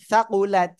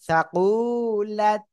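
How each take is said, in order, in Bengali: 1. শব্দটির স্বরধ্বনিগুলো ছোট করে রাখা হয়। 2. শব্দটির একটি স্বরধ্বনি টেনে বলা হয়। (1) "টান যেন না হয়" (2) "অনেকে আবার এরকম না পড়েন"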